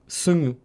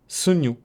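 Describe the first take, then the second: First: The middle consonant is nasal, spoken through the nose. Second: The same.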